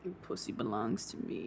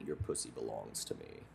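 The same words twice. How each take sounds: First: Low growl. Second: Deep gruff murmur; low growl. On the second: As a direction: rumble it low and menacing. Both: Retold or imitated.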